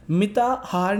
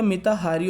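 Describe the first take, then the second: First: मिताहार said without the final ई, ending on र; the incorrect form मिताहार, ending short on र; teacher shows मिताहार as the mistake; wrong form. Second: मिताहारी said with the long ई clearly at the end; the correct form मिताहारी, finishing on a long ई; teacher gives मिताहारी as the right word. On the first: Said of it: "मिताहार नहीं होता". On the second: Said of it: "मिताहारी होता है". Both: Shown as a demonstration.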